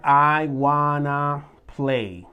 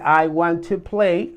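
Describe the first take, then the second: First: Want and to blend into one word, wanna. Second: Want and to are said as two full words. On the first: This is the informal, casual form. "vas a escuchar personas que te digan I wanna play" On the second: This is the standard, more formal form. "en vez de decir"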